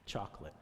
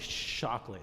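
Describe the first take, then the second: First: The word begins with a 'ch' sound. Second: The word begins with an 'sh' sound. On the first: The speaker calls it right. "instead of ch- chocolate" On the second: The speaker calls it wrong. "C H's sometimes come like S H's"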